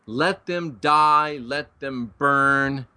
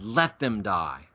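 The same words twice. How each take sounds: First: Very slow, each word stretched apart; a slow, deliberate second take leaning on the ending word; drawn-out quote. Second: Low, soft and slow, each word weighed; a hushed, heavy first take of the verdict; grim quote. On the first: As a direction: drag it out for emphasis. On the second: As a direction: drop down low and quiet and let it sink in. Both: Retold or imitated. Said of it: "Paul said".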